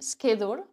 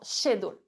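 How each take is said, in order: First: The word begins with an 'sk' sound. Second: The word begins with an 'sh' sound.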